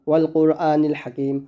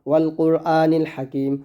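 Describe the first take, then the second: The two takes are said the same way.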